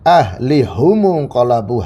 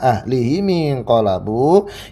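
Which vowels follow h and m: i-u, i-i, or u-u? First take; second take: u-u; i-i. First: The vowel u follows h, u follows m. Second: The vowel i follows h, i follows m. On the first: "hanya di dhamma sama mimnya" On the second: "mimnya di kasrah"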